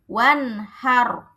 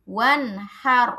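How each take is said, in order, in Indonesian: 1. Kata ini berakhir dengan r tebal yang mati. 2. Kata ini berakhir dengan r tebal yang mati.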